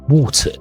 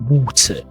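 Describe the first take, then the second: First: The middle T is a clear T. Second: The middle T is a clear T.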